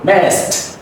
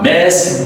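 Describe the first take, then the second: First: The word ends with a soft t sound. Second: The word ends with a voiced d sound. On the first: The speaker calls it right. "soft T" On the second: The speaker calls it wrong. "It's not messed, no"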